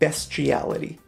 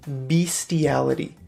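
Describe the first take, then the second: First: The first syllable sounds like 'best'. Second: The first syllable sounds like 'beast'. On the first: The speaker calls it right. "it's pronounced bestiality" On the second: The speaker calls it wrong. "A lot of people pronounce this word bestiality because another word for animal is beast"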